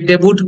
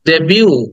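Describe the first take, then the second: First: The word ends with an audible t sound. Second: The word ends on an oo vowel, no t. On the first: The speaker calls it wrong. "অনেকে ডেবুট বলি" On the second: The speaker calls it right. "But it's ডেবিউ"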